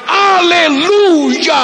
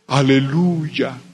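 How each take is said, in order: First: It is shouted very loudly. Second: It is said a bit louder.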